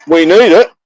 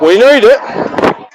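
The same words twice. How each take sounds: First: Said in the usual way. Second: "need" in "We need it" stretched slow and pitched high; drawn-out stress on need. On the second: Pretend. To his cohost about money, "We need it" with a slow high "need". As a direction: lean hard on "need", slow.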